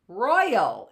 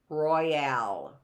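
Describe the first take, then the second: First: The stress is on the first syllable. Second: The stress is on the second syllable. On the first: The speaker calls it right. "It's royal" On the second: The speaker calls it wrong. "Royale would have an accent on a different, on the back end"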